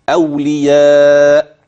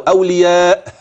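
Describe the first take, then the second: First: The final glottal stop closes gently without air. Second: The final glottal stop ends with a puff of air. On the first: The speaker calls it right. "سكن الهمز بلطف" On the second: The speaker calls it wrong. "بإخراج هواء بعد، لا"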